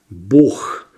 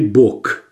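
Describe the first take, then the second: First: The word ends in a breathy kh sound. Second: The word ends in a hard k sound. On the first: The speaker calls it right. "«Г» переходит в «х»" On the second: The speaker calls it wrong. "но не"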